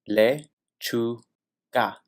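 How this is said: The word is said syllable by syllable. "break it down into syllables"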